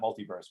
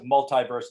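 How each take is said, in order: First: The second syllable has an 'ee' vowel. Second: The second syllable has an 'eye' vowel. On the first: "not multiverse" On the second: "why you pronounce it multiverse"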